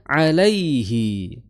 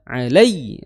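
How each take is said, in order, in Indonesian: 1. Bunyi ai mengalir halus dan lembut. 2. Bunyi ai terputus mendadak. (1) "karena layyin, nggak boleh dihentakan" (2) "Jangan sampai dibaca alai, alai, dihentakan"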